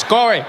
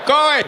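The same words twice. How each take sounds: First: "Go away" said firmly, a bit higher; a referee waving a player off, first take; mock referee dismissal. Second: The referee losing patience on the repeat; mock exasperated referee. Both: Ref sending player off.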